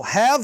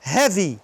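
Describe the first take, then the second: First: "have" ending on v; silent final E. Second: "heavy" with a clear ee ending; voiced final vowel. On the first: Teacher contrasting two words, silent E in "have". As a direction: stop "have" at the v. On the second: Teacher showing what the vowel changes, clear ee in "heavy". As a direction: add a full ee after the v in "heavy". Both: Shown as a demonstration. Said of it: "se eu falar o E".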